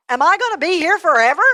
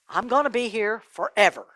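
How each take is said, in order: First: High, loud, rising question; alarmed question. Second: Subdued, falling statement; sinking realization. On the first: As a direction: ask in dismayed disbelief, voice climbing. Rich man asks in alarm. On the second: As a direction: let the awful truth sink in, pausing along the way. Rich man absorbs the verdict. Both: Acted.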